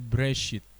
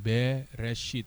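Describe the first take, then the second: First: The first vowel is thin, nearly dropped. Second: The first vowel is said long and full. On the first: The speaker calls it right. "tapi breshit" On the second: The speaker calls it wrong. "tidak dibaca dengan nada yang panjang"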